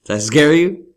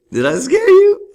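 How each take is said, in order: First: Teasing. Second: Much higher, loud teasing squeal; squeaky high tease. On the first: Teasing after jump-scare. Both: Pretend.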